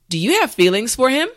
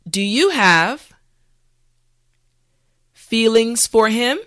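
First: The sentence is said at a natural speed. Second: The sentence is said slowly and carefully. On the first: "the last time at a regular pace" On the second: "this time repeat after me"

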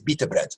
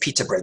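First: The first word starts with a B sound. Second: The first word starts with a P sound. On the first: "Arabs don't have a P sound. they say bita bread" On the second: "they don't say pita bread"

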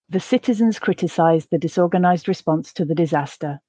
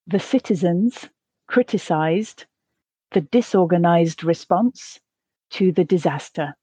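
First: The sentence is spoken at a natural pace. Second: The sentence is spoken slowly. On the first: "the second at a more natural pace" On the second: "the first time slowly"

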